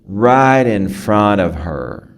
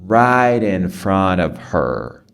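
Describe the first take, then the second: No difference in how they are said.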